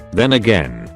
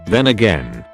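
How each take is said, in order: Both takes have the same delivery.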